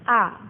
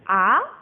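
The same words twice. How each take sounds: First: The pitch is short and light, without stress. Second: The pitch rises, like a surprised exclamation. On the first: "yang terakhir cingseng nada ringan" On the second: "orang terkejut"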